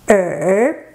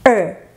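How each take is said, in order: First: The syllable is said with the third tone. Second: The syllable is said with the fourth tone. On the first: It means ear. "change your fourth tone to the third tone" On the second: It means the number two. "Just a er with a fourth tone"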